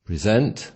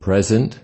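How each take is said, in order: First: The stress is on the second syllable. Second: The stress is on the first syllable. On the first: It is a verb meaning to offer. "if we stress the second syllable, it becomes a verb" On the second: It is a noun meaning a gift. "if we stress the first syllable of the word present, it will be a noun"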